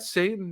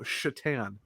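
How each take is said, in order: First: The name begins with a plain s sound. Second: The name begins with a sh sound. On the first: The speaker calls it wrong. "is that Satan?" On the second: The speaker calls it right. "No, Shatan"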